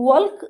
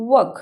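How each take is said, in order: First: "ୱାଲ୍କ" with the L sounded; wrong pronunciation. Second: "ୱାକ୍" with a silent L; correct pronunciation. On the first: Teacher showing pupils the wrong way, L sounded in "ୱାଲ୍କ". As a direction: say "ୱାଲ୍କ" pronouncing the silent L. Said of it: "ଏମିତି କହୁଛେ କି". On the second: Teacher correcting pupils, "ୱାକ୍" said with silent L. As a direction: say "ୱାକ୍" leaving out any L sound. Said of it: "no, ଆମେ କ'ଣ କହୁଛେ". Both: Shown as a demonstration.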